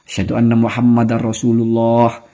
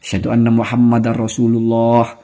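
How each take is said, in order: First: The n merges into the following r sound. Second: The same.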